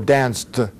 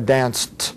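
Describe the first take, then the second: First: The word ends in a voiced sound. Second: The word ends in a voiceless t sound. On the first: The speaker calls it wrong. "e não danced" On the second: The speaker calls it right. "a gente fala danced"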